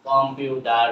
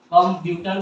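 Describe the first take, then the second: First: "কম্পিউটার" slow and low, T turned to D. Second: "কম্পিউটার" with a clear hard T. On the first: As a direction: say "কম্পিউটার" as "com-pyu-der". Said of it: "হয়ে যাবে". ("কম্পিউটার"-এর ট-কে ড বলে, ধীরে) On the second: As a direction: say "কম্পিউটার" as "com-pu-tar". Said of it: "আমরা কি বলি?". ("কম্পিউটার"-এ স্পষ্ট ট) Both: Shown as a demonstration.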